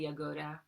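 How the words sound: The name is said with a Bosnian pronunciation. "if you pronounce it in Bosnian, it's probably Jagoda"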